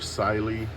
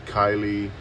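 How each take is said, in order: First: The first syllable sounds like sai. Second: The first syllable sounds like kai. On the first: "or Siley because of the C Y" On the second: "some people pronounce it Kylie"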